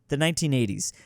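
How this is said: The voice stays flat and falls at the end. The answer is stated as if certain. The speaker calls it wrong. "There's too much seriousness in that tone"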